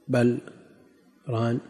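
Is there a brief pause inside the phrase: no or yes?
yes. A brief pause separates the two words. It means rather it has covered. "مواضع يسيرة يسكتون فيها سكتة لطيفة"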